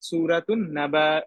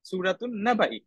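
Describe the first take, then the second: First: The phrase ends without a final i vowel. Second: The phrase ends with a final i vowel.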